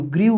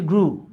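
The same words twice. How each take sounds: First: গ্রিউ said with an "ee-oo" glide, gree-oo; common mispronunciation. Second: গ্রু said as groo, one syllable with plain "oo"; corrected pronunciation. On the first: Teacher showing how many say grew, mispronounced as গ্রিউ, gree-oo. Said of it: "উচ্চারণ করি". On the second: Teacher correcting the class's grew, pronounced গ্রু, groo. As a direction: say গ্রু as groo, without any "ee" glide. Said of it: "এটার উচ্চারণ হচ্ছে গ্রু". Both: Shown as a demonstration.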